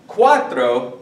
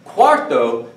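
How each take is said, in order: First: "Cuatro" said kwa-tro; r after t. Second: "Cuarto" said kwar-to; clearly sounded r closing the first syllable of "Cuarto"; r before t. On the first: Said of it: "this word is not cuarto". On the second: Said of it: "cuarto with an R". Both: Shown as a demonstration.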